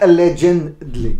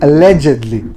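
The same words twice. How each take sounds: First: The word is said with an added n sound. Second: The word is said without an n sound. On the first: The speaker calls it wrong. "with the N" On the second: The speaker calls it right. "it's not with the end"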